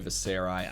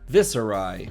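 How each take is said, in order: First: The stress is on the middle syllable. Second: The stress is on the first syllable. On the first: "Putting the emphasis in the middle just feels good" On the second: "we should just say vis Viscera, vis Viserai. Viserai from now on"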